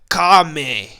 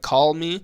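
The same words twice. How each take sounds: First: The L at the end of call is dropped. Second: The L at the end of call is pronounced. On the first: "But in Texas, you go" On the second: "call as regular people say, like call me"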